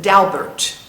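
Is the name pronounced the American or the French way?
American. The name is given an American pronunciation. "as the Americans say"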